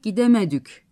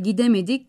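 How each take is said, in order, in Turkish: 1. Son ünlü yuvarlak bir ü sesidir. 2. Son ünlü düz bir i sesidir. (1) "gidemedük diyorlar" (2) "I ve İ sesleri U ve Ü'ye dönüşüyor"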